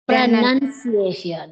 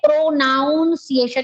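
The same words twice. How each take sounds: First: The second syllable sounds like nun. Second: The second syllable sounds like noun. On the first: The speaker calls it right. "It is pronun" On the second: The speaker calls it wrong. "It is not pronunciation"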